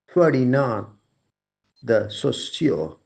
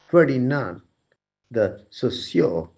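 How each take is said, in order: First: The name is said with French-style sounds. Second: The same.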